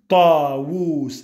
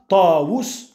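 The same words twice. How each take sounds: First: The vowel after the w is long. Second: The vowel after the w is short. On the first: The speaker calls it right. "mais tu dis Tawus" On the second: The speaker calls it wrong. "Tu ne dis pas Tawus"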